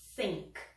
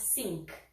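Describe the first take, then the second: First: It begins with a th sound, tongue between teeth. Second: It begins with an f or s sound. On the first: The speaker calls it right. "a língua no meio dos dentes" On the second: The speaker calls it wrong. "Não é think"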